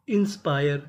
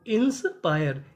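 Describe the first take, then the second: First: Said in the usual way. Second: "इंस्पायर" split as इंस, then पायर; broken into syllables. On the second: Shown as a demonstration. Teacher breaking the word for learners, "इंस्पायर" said as इंस-पायर. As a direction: say "इंस्पायर" slowly in two parts, इंस-पायर.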